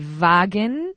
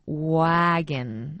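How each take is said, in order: First: It begins with a v or b-like sound. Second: It begins with a rounded oo-like w sound. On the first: The speaker calls it wrong. "no suena a V" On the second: The speaker calls it right. "es como una, una especie de ua"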